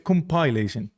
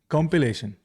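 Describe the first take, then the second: First: The second syllable sounds like 'pile'. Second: The second syllable sounds like 'pill'. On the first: "Option B is compilation" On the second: "Option A is compilation or, or close to it"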